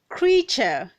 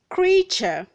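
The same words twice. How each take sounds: First: The word is said with two syllables. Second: The word is said with two syllables.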